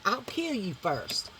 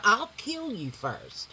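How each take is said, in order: First: Same threat, softer and slower; toned-down threat. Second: Louder threat. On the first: Redoing the kill threat more quietly. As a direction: pull the threat back, quiet and cold. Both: Shown as a demonstration. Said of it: "I wanna take that down just a little".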